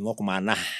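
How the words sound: The last word ends in 'a' plus an 'h'. The speaker is from the outer area. "kecenderungan "a" itu ditambah dengan "h""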